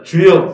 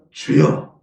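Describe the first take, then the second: First: 주여 called out louder; a strong call of 주여. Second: Breathy whisper with no voice. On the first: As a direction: call out 주여 for all to repeat. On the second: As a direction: hush it to a whisper. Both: Shown as a demonstration. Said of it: "한번 따라합니다".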